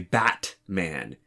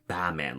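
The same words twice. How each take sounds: First: The t sound in the middle is clearly pronounced. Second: The t sound in the middle is dropped. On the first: "you don't say Batman" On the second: "something closer to almost like Batman, like B A M A N"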